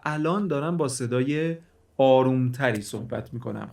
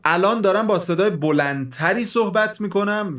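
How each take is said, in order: First: It is spoken quietly. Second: It is spoken loudly.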